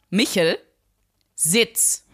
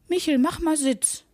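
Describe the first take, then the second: First: It is said firmly, as a hard command. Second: It is said softly, as a pleading request.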